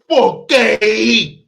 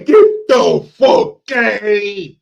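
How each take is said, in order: First: The opening words are dropped or swallowed. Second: Every word of the phrase is said fully. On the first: The speaker calls it right. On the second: The speaker calls it wrong.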